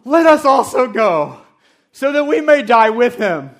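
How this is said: It is said with exaggerated drama.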